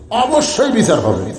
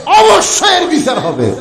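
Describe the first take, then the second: First: Said in the usual way. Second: High, ringing verdict; forceful proclamation. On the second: Retold or imitated. Umar promising judgment to the crowd, high forceful proclamation. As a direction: proclaim it high, falling at the end. Retold Umar's verdict, proclaimed then repeated lower.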